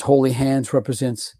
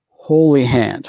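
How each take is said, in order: First: Said in the usual way. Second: "holy hands" slow and louder, leaning on each word; emphasis on holy hands. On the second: Shown as a demonstration. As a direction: press hard on "holy hands", drawn out. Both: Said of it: "The emphasis on".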